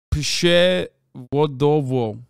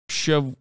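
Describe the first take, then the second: First: Przewodowo stretched out syllable by syllable, louder; careful slow pronunciation. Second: Said in the usual way. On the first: Shown as a demonstration. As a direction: sound out Przewodowo very slowly and carefully.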